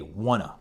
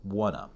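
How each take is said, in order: First: The words blend into one reduced word. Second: The same.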